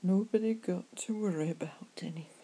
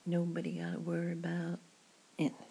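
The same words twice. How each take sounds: First: Whispered "Nobody got to worry" in a Cornish accent. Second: "nobody gotta worry about anything" in a light American accent. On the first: Pub chat to a worried friend, whispered Cornish accent. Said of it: "I prefer my Cornish accent". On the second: Reassuring a friend in the pub, American accent. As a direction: try on a casual American accent. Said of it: "American accent". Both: Shown as a demonstration.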